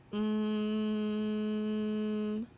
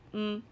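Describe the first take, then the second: First: "mm" as one long level hum; slow sound. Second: "Mm" as a short hum; fast sound. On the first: Teacher models a sound for children, "mm" held long. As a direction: hold "mm" steadily without a break. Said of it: "say a sound slowly". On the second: Teacher answers "say it fast", "Mm" said very short. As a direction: cut "Mm" short and quick. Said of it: "Say it fast". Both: Shown as a demonstration.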